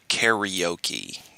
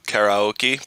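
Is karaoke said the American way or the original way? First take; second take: American; original. First: The word gets the usual American pronunciation. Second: The word gets its original, non-American pronunciation. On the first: "us Americans ... we call it karaoke" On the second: "pronounce it properly too"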